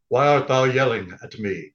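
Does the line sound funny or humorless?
humorless. It is said in a stiff, humorless tone.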